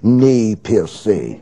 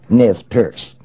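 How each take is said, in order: First: The name is said with a French pronunciation. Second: The name is said with an English pronunciation. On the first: The speaker calls it wrong. "mispronounce it in a good French manner" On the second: The speaker calls it right. "but it is pronounced Nez Perce"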